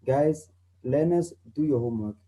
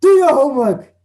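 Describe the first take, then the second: First: Calm. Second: High, loud furious order; angry command. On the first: Calm teacher telling learners to do homework. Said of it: "If I'm calm, like I am right now". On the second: Angry teacher ordering learners to do homework. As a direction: bark the order in anger. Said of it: "if maybe I'm angry". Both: Shown as a demonstration.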